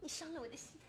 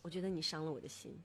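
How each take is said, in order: First: It is said in a coy, operatic tone. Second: It is said in a calm, cold tone.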